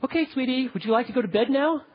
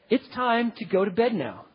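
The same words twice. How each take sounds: First: Mock sugary coaxing question; gently asking permission; asking sweetly. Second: Calm, cheerful statement of bedtime; matter-of-fact and cheerful. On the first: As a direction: ask like a pushover parent, sweetly. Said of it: "Don't say". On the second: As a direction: state it brightly, no question. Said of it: "And you say it cheerfully". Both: Shown as a demonstration.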